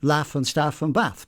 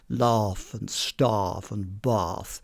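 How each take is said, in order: First: It is said in an East Midlands English accent. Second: It is said in a southern English RP accent. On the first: "I would say, naturally... because I'm from the East Midlands" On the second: "from the southeast of England and had an R P, received pronunciation voice"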